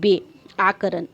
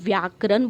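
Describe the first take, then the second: First: The word begins with a 'be' sound. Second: The word begins with a 'vya' sound. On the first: This is how the dialect says it. "इसमें बेआकरण बोला जाता है" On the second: This is the standard way of saying it. "जैसे हम लोग को व्याकरण बोलते हैं"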